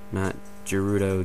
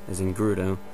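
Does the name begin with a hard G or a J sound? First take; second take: J; hard G. First: The name begins with a J sound. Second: The name begins with a hard G sound. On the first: The speaker calls it wrong. "instead of a J, not Gerudo" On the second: The speaker calls it right. "a hard G sound like G, as in Gerudo"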